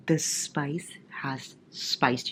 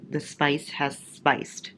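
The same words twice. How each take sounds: First: Slow breathy whisper. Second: Slow, drawn-out statement; slow plain. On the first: Reader whispering about the spicy chapter to viewers. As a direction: whisper it like a naughty secret. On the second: Reader announcing the spicy chapter to viewers, slowly. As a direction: let it land slowly. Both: Real, not acted.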